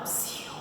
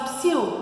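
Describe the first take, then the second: First: It is said as a hushing sound for quiet. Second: It is said as a call to get attention. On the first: Someone is being asked to be quiet. "Estou pedindo silêncio" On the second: Someone is being called over. "É um chamamento, eu estou chamando alguém"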